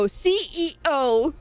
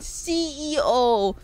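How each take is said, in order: First: The word is said carefully and clearly. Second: The word is said loosely and unclearly. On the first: The speaker calls it right. "No, I had to go CEO" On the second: The speaker calls it wrong. "If I say it right now, I say CEO, like CEO"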